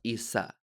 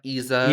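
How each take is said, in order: First: The middle consonant is a clear s sound. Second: The middle consonant is not an s sound. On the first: The speaker calls it right. "my name is pronounced Issa with the S" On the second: The speaker calls it wrong. "It's not Iza"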